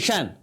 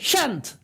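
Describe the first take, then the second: First: The final t sound is left silent. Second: The final t sound is clearly pronounced. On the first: The speaker calls it right. "this is the way they pronounce especially the native speakers" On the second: The speaker calls it wrong. "that is a wrong pronunciation wrong accent"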